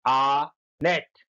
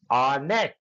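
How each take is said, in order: First: honest drawn out slowly as आ and nest; slow syllable split. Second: Said in the usual way. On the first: Shown as a demonstration. Teacher splitting the word for pupils, slowly. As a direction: stretch honest into its two parts. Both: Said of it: "दो शब्द, आ और nest हो गया".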